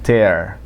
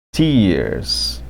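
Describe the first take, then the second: First: "tear" said like tare, rhyming with air; "tear" with the vowel of air; verb tear. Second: "tears" with a long ee, rhyming with beers; "tears" said teers, long ee vowel; tears as in crying. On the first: Teacher tells students the verb tear, rhymes with air. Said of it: "A pronúncia é tear". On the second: Teacher contrasts tear with tears, long ee. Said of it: "já muda de tear pra". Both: Shown as a demonstration.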